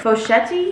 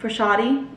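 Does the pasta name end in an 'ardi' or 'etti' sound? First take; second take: etti; ardi. First: The word ends with an 'etti' sound. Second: The word ends with an 'ardi' sound. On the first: "I still don't know how to pronounce this" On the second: "I always want to call it fosciardi. It's not"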